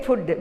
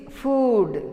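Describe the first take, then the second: First: "food" with a short clipped vowel; "food" as fudd, short oo; common mispronunciation. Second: "food" with a long oo; "food" with a held oo before the d; correct pronunciation. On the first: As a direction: say "food" like "good". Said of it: "Often we say food". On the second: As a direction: say "food" stretching the vowel, fooood. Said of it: "It is food". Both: Shown as a demonstration.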